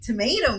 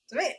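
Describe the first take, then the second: First: The word is said slowly and carefully articulated. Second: The word is said quickly in a relaxed way. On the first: "If I focus on it, if I try to like accentuate it" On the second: "if it's just like I'm just talking"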